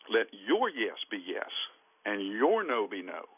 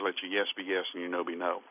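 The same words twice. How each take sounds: First: The word 'your' is stressed. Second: The word 'your' is not stressed. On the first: A person should keep their word and mean what they say. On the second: Swearing and any words besides yes or no are evil.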